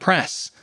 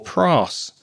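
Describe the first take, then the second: First: The vowel is a short, single sound. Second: The vowel is a long, single sound. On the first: "making it shorter" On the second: "making it longer and not correct"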